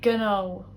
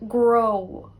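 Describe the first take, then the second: First: The word starts with a 'gn' sound. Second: The word starts with a 'gr' sound.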